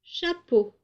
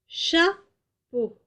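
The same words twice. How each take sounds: First: Said in the usual way. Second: Chapeau split as cha... peau, first syllable high. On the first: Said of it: "je vous propose le mot". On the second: Shown as a demonstration. Teacher showing the first syllable, Chapeau broken in two. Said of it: "commencent par la syllabe chat".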